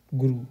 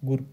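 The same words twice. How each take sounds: First: गुरु said with a lengthened oo at the end; long-oo ending on गुरु; long final u. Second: गुरु said with a brief final u; short-u ending on गुरु. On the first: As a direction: hold the last vowel of गुरु long. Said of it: "गुरु नहीं". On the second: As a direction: keep the last vowel of गुरु short. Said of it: "गुरु सही है". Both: Shown as a demonstration.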